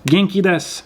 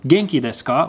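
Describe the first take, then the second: First: "Genki desu" falling at the end, as an answer; statement tune. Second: "Genki desu ka" rising at the end; question tune. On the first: Replying to how are you, "Genki desu" in falling statement tune. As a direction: say "Genki desu" as a statement, pitch dropping to close. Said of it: "not in the form of a question". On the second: Somebody asks you how you are, "Genki desu ka" as rising question. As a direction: ask "Genki desu ka" with a lift on ka. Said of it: "in the form of a question". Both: Shown as a demonstration.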